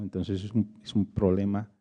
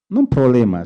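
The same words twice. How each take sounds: First: Said in the usual way. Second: "no un problema", dicho más fuerte; corrección enfática. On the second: Shown as a demonstration. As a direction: corrige con énfasis "no un problema". (corrigiendo con énfasis)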